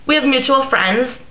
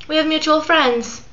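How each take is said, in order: First: Said in the usual way. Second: Faux-sweet message. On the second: Shown as a demonstration. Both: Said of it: "with a smiley face".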